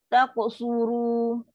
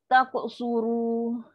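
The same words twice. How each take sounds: Both takes have the same delivery.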